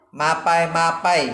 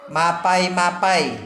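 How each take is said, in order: The two takes are said the same way.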